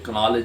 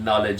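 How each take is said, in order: First: The word starts with a sounded k. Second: The word starts with an n sound. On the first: The speaker calls it wrong. "ये कनॉलेज नहीं है" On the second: The speaker calls it right. "नॉलेज है"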